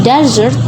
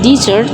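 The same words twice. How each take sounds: First: DESSERT stressed on its first syllable. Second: Dessert stressed on its second syllable. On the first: Teacher contrasting two nouns, "Dessert" stressed on the first syllable. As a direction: punch the opening of "Dessert", like the sandy desert. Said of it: "the stress is different". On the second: Teacher contrasting two nouns, "dessert" stressed on the second syllable. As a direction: lean on the end of "dessert", as in the sweet. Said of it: "the stress is on the second syllable". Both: Shown as a demonstration.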